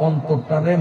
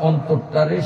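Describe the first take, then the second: No difference in how they are said.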